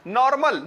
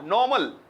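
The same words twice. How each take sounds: First: The R sound is clearly pronounced. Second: The R sound is left silent. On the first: The speaker calls it wrong. "No" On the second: The speaker calls it right. "सेलेबल एंड हो आर पे वो भी silent होना चाहिए"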